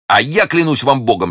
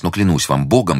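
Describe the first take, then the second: First: Fervent vow, higher, with weight on "я"; ardent counter-oath. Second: Said in the usual way. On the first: A narrator's reading. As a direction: stress on "я", pitched high. His oath answering hers.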